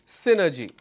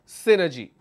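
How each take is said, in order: No difference in how they are said.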